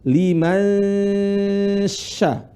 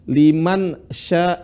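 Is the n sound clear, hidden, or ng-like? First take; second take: hidden; clear. First: The n is hidden with the tongue at sh. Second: The n sound is pronounced fully and clearly. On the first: The speaker calls it right. "yang benar" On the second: The speaker calls it wrong. "itu yang namanya jelas"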